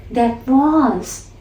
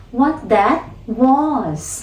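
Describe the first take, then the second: First: "that was" with a light falling tune. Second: "what that was" drawn out very slowly with a falling tune; stress on what that was. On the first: Teacher pointing out the falling tone on "that was". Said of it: "Notice the change in the tone at". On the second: Teacher isolating the stressed phrase "what that was", very slow. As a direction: stretch out "what that was", each word weighted. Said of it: "So the stress is on the phrase". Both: Shown as a demonstration.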